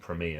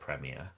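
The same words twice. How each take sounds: First: The word is said with an American pronunciation. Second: The word is said with a British pronunciation. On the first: "I'm going to get mocked by anyone who knows me from England now for saying premier" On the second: "instead of premier"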